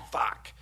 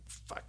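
First: Said in the usual way. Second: Much softer, under the breath; hushed dismayed curse; muttered curse. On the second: Retold or imitated. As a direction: swear to yourself so nobody hears. Caught out at seminar, inner curse.

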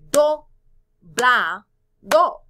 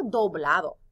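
First: "Do, bla, do" in three loud, separate beats; counting out syllables. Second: Said in the usual way. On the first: Shown as a demonstration. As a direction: punch each of "Do, bla, do" with pauses between. ("Do, bla, do" sílaba por sílaba, con fuerza) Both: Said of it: "Tres sílabas".

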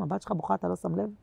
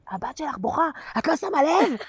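First: Soft, hushed appeal upward; murmured prayer-like complaint to God; quiet plea to God. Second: Quoting the woman's rebuke while cracking up; mock reproach breaking into laughter; laughing mock quote. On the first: Real, not acted. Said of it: "אני לא צועקת להשם". (תחינה שקטה לה') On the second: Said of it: "ואז היא אומרת לי". (ציטוט נוזף תוך צחוק)

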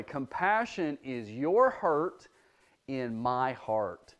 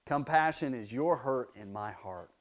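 First: Slow and deliberate, pausing before the second half; slow quoted saying. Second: Said in the usual way. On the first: Shown as a demonstration. Teacher quoting a preacher to children, slow and deliberate. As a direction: lay each word down slowly, letting it sink in. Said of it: "a preacher who says it this way". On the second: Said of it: "says it this way".

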